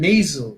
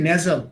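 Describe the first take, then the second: First: The first vowel glides like 'ay'. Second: The first vowel is a plain 'eh' sound. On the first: The speaker calls it right. "এটা হবে নেইজো" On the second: The speaker calls it wrong. "আমরা বলি নেজাল"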